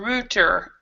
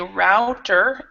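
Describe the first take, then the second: First: It is said with a British English pronunciation. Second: It is said with an American English pronunciation. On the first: "in British English" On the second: "in American English"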